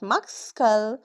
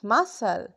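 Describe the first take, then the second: First: A C sound is pronounced. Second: The C is silent. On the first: The speaker calls it wrong. "not muscle" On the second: The speaker calls it right. "it's muscle"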